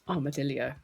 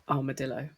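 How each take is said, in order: First: The word is said with an extra syllable added. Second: The word is said without an extra syllable. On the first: The speaker calls it wrong. "Added like a whole syllable in there" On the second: The speaker calls it right. "how is it said then?"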